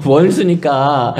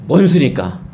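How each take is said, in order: First: 원수니까 stretched out very slowly, teasing; slow sarcastic repeat of 원수니까; mock drawn-out echo. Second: Said in the usual way. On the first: Shown as a demonstration.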